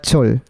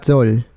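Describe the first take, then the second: First: The consonant is aspirated with a puff of air. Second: The consonant is plain and light, without breath. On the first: The speaker calls it right. "como tiene aire" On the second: The speaker calls it wrong. "sonaría más como ti, ha, sol, más ligerito"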